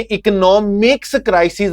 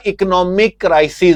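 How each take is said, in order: First: "इकोनॉमिक्स" ending in an audible ks; added final s. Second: "इकोनॉमिक" ending on a plain k; no final s. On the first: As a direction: sound the extra s closing "इकोनॉमिक्स". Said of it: "नहीं होगा". ("इकोनॉमिक्स" के आख़िर में स की आवाज़) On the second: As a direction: close "इकोनॉमिक" on k without an s. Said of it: "बल्कि क्या होगा". ("इकोनॉमिक" के आख़िर में सिर्फ़ क) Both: Shown as a demonstration.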